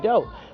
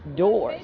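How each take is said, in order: First: The word's final sounds are dropped. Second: The word ends with its full final sounds. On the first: The speaker calls it wrong. "not dough" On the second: The speaker calls it right. "it's doors"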